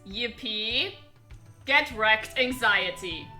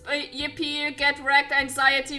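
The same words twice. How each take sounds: First: It is read more slowly and clearly. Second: It is read quickly in a garbled voice. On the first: "And now for a little bit slower" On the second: "in the best gibberish voice I can muster"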